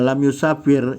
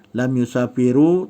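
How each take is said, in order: First: The verb ends on a consonant with no vowel. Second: The verb ends with a short u vowel. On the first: The speaker calls it right. "dia mesti sukun, dia mesti mati" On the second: The speaker calls it wrong. "tak boleh bacanya"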